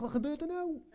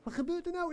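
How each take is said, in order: First: Surprised. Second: Much higher, laughing through the words; baffled laugh at what just happened; laughing disbelief. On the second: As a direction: ask it in amused shock, pitch up high. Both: Retold or imitated. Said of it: "Ik dacht echt".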